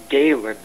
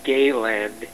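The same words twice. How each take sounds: First: "Galen" as GAY-lun, short second syllable; corrected pronunciation. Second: "Gayland" drawn out as gay-land; mispronounced name. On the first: Correcting others on a name, "Galen" as GAY-lun. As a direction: say "Galen" with a reduced ending, no d. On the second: Correcting others on a name, "Gayland" as two words. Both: Shown as a demonstration. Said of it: "It's not Gayland, it's Galen".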